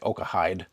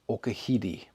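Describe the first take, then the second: First: The name is read as English spelling suggests. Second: The name is said with Japanese pronunciation. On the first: "It's spelled like Okahide" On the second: "the Japanese pronunciation, the proper way to say it"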